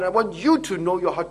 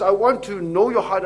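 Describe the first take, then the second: First: "you" stressed, the rest even; preacher shifts the weight onto "you". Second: "want" pushed hard with a falling tune; preacher hits "want", not "you"; stress on want. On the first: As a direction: land on "you", turning it to the listener. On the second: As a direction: lean on "want", God's own wish. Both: Shown as a demonstration.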